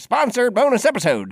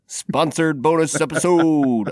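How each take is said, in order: First: It is said in a put-on old-timey radio voice. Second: It is said in an ordinary speaking voice.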